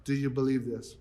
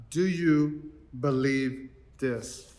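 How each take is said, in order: First: Soft, hushed ask; Jesus quietly asking Martha; simple quiet question. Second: Slow hushed question from the pulpit; solemn question. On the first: Retold or imitated. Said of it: "he simply asked her". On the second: Acted. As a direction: ask it gently and let it hang. Jesus's question in the reading.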